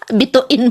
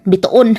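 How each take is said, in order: First: "Bituin" with an i in the last syllable; "Bituin", i in place of o; corrected bituin. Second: "Bituon" with an o in the last syllable; low "Bituon", o in place of i; mispronounced bituin. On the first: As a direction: say "Bituin", ending in -in. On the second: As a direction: say "Bituon", ending in -on, pitched low. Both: Real, not acted. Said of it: "Bituin pala".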